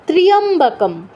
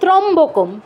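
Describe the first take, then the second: First: The first syllable has a 'y' sound. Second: The first syllable has no 'y' sound. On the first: The speaker calls it right. "উচ্চারণটা কি হবে" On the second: The speaker calls it wrong. "আমরা কি বলি ত্রম্বকম, ত্রম্বকম কিন্তু নয়"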